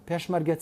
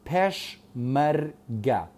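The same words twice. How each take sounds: First: Said in the usual way. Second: پێشمەرگە broken slowly into three syllables. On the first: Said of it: "چەند بڕگەیە". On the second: Shown as a demonstration. Teacher counting syllables for students, پێشمەرگە split slowly into its three syllables. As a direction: say پێشمەرگە as پێش، مەر، گە with gaps. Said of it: "پێشمەرگە چەند بڕگەیە".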